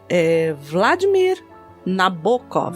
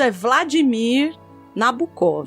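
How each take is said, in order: First: The name is pronounced the Russian way. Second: The name is pronounced the Brazilian Portuguese way. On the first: "se a gente for pro russo" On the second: "como estamos aqui brasileirando tudo"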